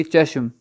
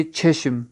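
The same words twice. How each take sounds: First: چشم with plain ch and short a, like "chashm"; Urdu pronunciation. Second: چشم with aspirated ch and e, like "chheshm"; Persian pronunciation. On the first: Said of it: "Urdu تلفظ کی طرح ہم پڑھیں گے". (چشم اردو تلفظ میں، زبر والی چ) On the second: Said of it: "فارس تلفظ میں ہم پڑھیں گے". (چشم فارسی تلفظ میں، چھ کی آواز سے) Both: Shown as a demonstration.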